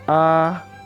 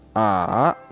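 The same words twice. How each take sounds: First: The pitch stays high and level. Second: The pitch dips low, then comes back up. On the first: "Nada satu, iseng" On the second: "Nada tiga, sanseng"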